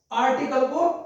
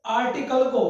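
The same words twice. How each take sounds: The two takes are said the same way.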